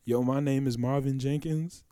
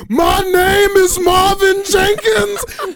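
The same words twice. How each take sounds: First: Quietly stated, matter-of-fact; calm intro. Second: Slow, much higher and louder crying yell; sudden wailing shout. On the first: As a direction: say it softly and plainly. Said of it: "He said". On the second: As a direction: burst into an anguished wail on the repeat. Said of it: "half a second and said". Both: Retold or imitated.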